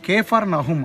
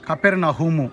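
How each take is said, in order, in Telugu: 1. ఇది రెండు పదాలుగా చెబుతారు, Kefar Nahum. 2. ఇది ఒకే పదంగా చెబుతారు, Kapernahumu. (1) "ఒరిజినల్ ప్రొనౌన్సియేషన్" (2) "అనే పేరట పిలువబడుతుంది"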